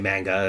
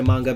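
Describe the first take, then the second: First: The word is said with an Americanized pronunciation. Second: The word is said in its original, non-American way. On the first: "sometimes you get Americanized, you say manga" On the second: "that's actually how it's pronounced"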